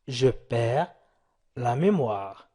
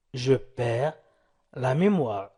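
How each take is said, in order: Both takes have the same delivery.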